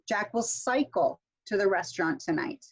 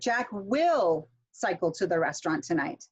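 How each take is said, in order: First: The stress is on cycle. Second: The stress is on will.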